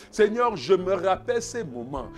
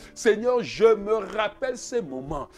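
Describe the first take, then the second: No difference in how they are said.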